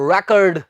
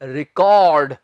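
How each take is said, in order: First: The first syllable has an open 'reck' sound. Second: The first syllable is a short 'ri' sound. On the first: It is used as a noun. "As a ਨਾउन ਇਹਨੂੰ ਅਸੀਂ ਕਵਾਂਗੇ ਰੈਕਡ" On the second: It is used as a verb. "Verb ਦੇ ਤੌਰ ਤੇ ਕੀ ਕਵਾਂਗੇ ਆਪਾਂ?"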